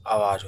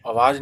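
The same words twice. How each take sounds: First: "आवाज़" with a long opening aa; correct long vowel. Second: "आवाज़" said with a short first a, as "awaaz"; wrong short vowel. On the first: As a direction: open "आवाज़" on a full आ, as "aawaaz". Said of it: "आवाज़ होता है". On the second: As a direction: clip the opening vowel of "आवाज़" to अ. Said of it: "आवाज़ नहीं होता है". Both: Shown as a demonstration.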